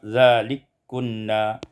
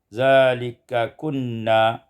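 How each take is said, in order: First: The two k sounds merge into one. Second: The two k sounds are kept apart.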